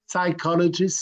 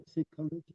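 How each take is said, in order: First: "Psychologist" said firmly with a French accent, stress on the last syllable. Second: "Psychologist?" asked softly and unsure, with rising tune; unsure quiet try. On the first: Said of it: "sorry for the French accent, it's terrible". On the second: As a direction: murmur "Psychologist?" as a hesitant question to yourself. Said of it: "how you say, huh?". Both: Real, not acted.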